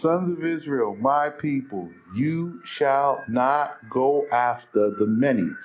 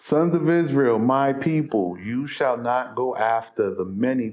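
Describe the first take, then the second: First: It is read more slowly. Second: It is read quickly.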